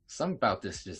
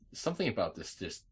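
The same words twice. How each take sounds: First: It is said with a New York accent. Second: It is said without a New York accent. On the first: The speaker calls it right. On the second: The speaker calls it wrong.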